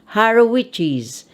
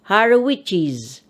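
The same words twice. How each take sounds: Both takes have the same delivery.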